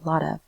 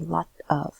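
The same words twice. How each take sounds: First: The T rolls smoothly into 'of'. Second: The T is crisp and separate from 'of'. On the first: The speaker calls it right. "you can hear that it rolls. ... We say lot of" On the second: The speaker calls it wrong. "We don't say lot of"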